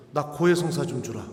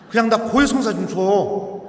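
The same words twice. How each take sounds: First: Said in the usual way. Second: Louder insistent plea. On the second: Retold or imitated. Insisting on confession.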